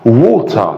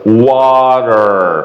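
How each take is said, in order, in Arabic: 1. حرف العلة الأول مدوّر، ولا يوجد صوت r في النهاية. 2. حرف العلة الأول مفتوح، وصوت t ناعم، ويوجد صوت r في النهاية. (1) "ووتا بالبريتش" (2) "الامريكان اكسنت بيبقى مفتوحه وا"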